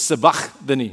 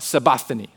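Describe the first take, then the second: First: The middle consonant is harsh and throaty. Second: The middle consonant is soft and light. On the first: This is the more authentic way to say it. "If you really want to be about it, it's Sabachthani. Okay. I just spit" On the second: This is the everyday way to say it.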